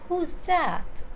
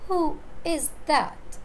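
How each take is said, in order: First: Who and is are joined into who's. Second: It is said as three separate full words.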